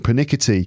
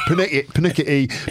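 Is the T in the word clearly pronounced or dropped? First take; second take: clear; dropped. First: The T sound is clearly and crisply pronounced. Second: The T sound is dropped or softened. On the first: "who pronounces their T's in the world, there's just like most people, and then there's me going pernickety" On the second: "everyone else is like pernickety"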